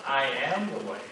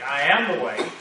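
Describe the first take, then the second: First: Said in the usual way. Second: "am" stressed, slightly louder and firmer; emphatic "I am the way"; more emphatic. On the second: Shown as a demonstration. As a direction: lean into "am" with emphasis. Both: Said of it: "make it a little more emphatic".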